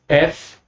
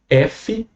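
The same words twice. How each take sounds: First: The letter is said with English pronunciation. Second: The letter is said with Portuguese pronunciation. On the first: "F em inglês" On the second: "F em português"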